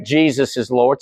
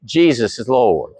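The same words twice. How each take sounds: First: Said in the usual way. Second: Drawn out, said together with the congregation; slow unison declaration. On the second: Shown as a demonstration. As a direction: lead the room in a slow creed. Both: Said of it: "Say that with me".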